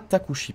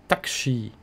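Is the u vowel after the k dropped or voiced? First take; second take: voiced; dropped. First: The u after the k is fully voiced. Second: The u after the k is dropped. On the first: The speaker calls it wrong. "on ne le prononce pas Takushi" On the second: The speaker calls it right. "Le U là, il est parti"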